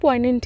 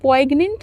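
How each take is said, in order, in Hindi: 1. "n" से पहले कोई "g" की आवाज़ नहीं आती। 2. "n" से पहले "g" की आवाज़ आती है। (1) "पॉइनेंट है" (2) "पॉइग्नेंट नहीं इसको प्रोनाउंस करना है"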